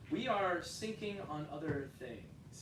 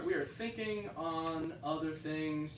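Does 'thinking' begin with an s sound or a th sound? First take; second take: s sound; th sound. First: Thinking begins with an s sound. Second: Thinking begins with a th sound. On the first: The speaker calls it wrong. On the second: The speaker calls it right.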